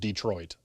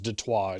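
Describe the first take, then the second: First: It is said the ordinary English way. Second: It is said like French 'De Trois'. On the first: "the nationwide accepted normal way" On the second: "some kind of niche correct pronunciation"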